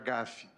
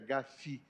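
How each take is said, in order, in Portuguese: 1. É pronunciado com sotaque português. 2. É pronunciado com sotaque francês. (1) "prefiro pronunciar GAFI" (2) "pronúncia francesa"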